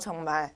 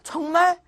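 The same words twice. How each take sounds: First: The pitch falls at the end, like a statement. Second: The pitch rises at the end, like a question.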